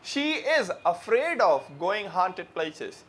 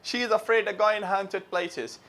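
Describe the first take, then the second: First: Every word is said fully and separately. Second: Words run together quickly with reduced sounds. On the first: "हम बोलते हैं" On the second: "वो जब speed में बोलते जाते हैं तो कैसे बोलते हैं"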